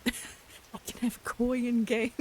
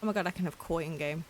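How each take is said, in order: First: Slow, loud, higher, laughing delight; gleeful drawn-out repeat; excited squeal. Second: Said in the usual way. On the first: Real, not acted. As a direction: stretch it out, giggling with glee.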